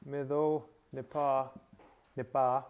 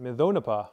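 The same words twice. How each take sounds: First: "mido nipa" slowly, each word separate; slow enunciation. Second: "mido nipa" run together with DO stronger than the ending; pronounced as joined words. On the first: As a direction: enunciate "mido", pause, then "nipa", each stressed at its end. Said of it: "just to enunciate it". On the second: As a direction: connect "mido nipa" smoothly into one phrase. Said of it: "that says pronounce it". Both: Shown as a demonstration.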